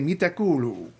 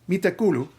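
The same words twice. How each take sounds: First: The u vowels in kuuluu are held long. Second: The u vowels in kuuluu are short. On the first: The speaker calls it right. "Because it's double U's, I say" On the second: The speaker calls it wrong. "I don't say"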